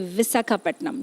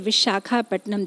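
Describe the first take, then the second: First: The consonant after 'Vi' is 's'. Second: The consonant after 'Vi' is 'sh'. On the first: This is how local Telugu people say it. "they say Visakhapatnam" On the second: This is the devotees' version of the name. "they don't say Vishakhapatnam"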